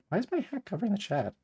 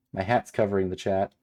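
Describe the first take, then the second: First: High-pitched, puzzled whine; baffled complaint. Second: Said in the usual way. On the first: Real, not acted. Baffled that hat blocks chat.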